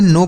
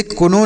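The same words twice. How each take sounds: First: नो with silent K; correct reading. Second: कोनो with the K sounded; wrong reading. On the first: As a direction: say नो as one syllable, starting on N. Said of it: "नो पढ़ते हैं". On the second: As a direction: misread कोनो in two syllables, "ko-no". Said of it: "तो इसे कोनो नहीं पढ़ते हैं". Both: Shown as a demonstration.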